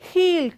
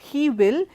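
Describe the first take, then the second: First: He and will merge into one short syllable. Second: He and will are said as two full words. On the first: The speaker calls it right. "It is he'll come tomorrow" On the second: The speaker calls it wrong. "So it's not he will"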